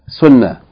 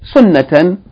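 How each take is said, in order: First: The word ends with a soft h sound. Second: The word ends with a full tan sound. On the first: The reader stops or pauses on this word. "you say sunnah instead of sunnatan" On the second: The reading continues on to the next word. "The ta marbuta that has two fatha if you continue reading"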